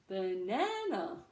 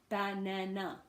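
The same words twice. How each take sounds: First: The middle syllable is stressed, others short. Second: Every syllable gets the same stress. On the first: The speaker calls it right. "we go short, long, short, uh, or low, high, low" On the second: The speaker calls it wrong. "there is equal stress on every syllable"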